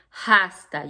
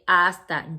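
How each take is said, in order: First: It starts with an audible h sound. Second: It starts with a vowel, no h sound. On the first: The speaker calls it wrong. "You don't say hasta" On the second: The speaker calls it right. "remember it has an H with no sound. So you say hasta"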